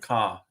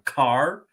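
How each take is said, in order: First: The final R is dropped. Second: The final R is clearly pronounced. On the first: "In the South, you'll hear a ka everywhere" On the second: "we have the hard R in car"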